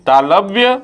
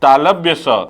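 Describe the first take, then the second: First: तालव्य said alone with a lifting tune; term repeated. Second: तालव्य स said firmly with a falling close; term confirmed. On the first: Teacher drilling the word for students, tune rising. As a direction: hold तालव्य up as a question-like echo. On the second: Teacher drilling the word for students, tune falling. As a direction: settle तालव्य स down with a firm fall. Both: Shown as a demonstration. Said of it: "तालव्य स कहना चाहिए".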